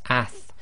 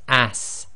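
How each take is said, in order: First: The word ends with a soft th sound. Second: The word ends with a hissing s sound. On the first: The speaker calls it right. "it's a th sound, so it's ath" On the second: The speaker calls it wrong. "countries where they might pronounce this as ass, and it's not a sa sound"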